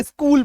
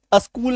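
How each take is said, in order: First: स्कूल starting straight on the s, joined to k; correct SK blend. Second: अस्कूल with "a" before the s; wrong added vowel. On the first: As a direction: model स्कूल with no vowel between s and k. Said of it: "अस्कूल नहीं बोलेंगे". (आधा स और क मिलाकर सही उच्चारण) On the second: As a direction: demonstrate the wrong a-skool in अस्कूल. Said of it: "स्कूल बोलेंगे". (आगे "अ" वाला गलत उच्चारण) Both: Shown as a demonstration.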